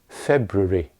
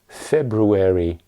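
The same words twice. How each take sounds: First: An unstressed syllable is reduced, British style. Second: All syllables are pronounced in American style. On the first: "In British English, at most it's February" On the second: "In American English, you would hear February"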